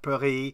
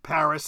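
First: The name is said with a French pronunciation. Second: The name is said with an English pronunciation. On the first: The speaker calls it wrong. "and not" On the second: The speaker calls it right. "generally accepted English foreign pronunciations"

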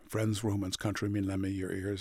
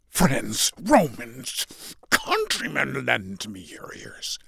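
First: It is rattled off quickly and flatly. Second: It is delivered with forceful, dramatic intensity.

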